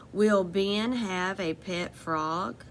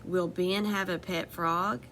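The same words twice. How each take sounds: First: Will Ben have a pet frog with a slow rising question tune; asking tune, rising at the end. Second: Said in the usual way. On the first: Shown as a demonstration. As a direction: read it slowly so it sounds like a question. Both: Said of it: "that sounds like a question".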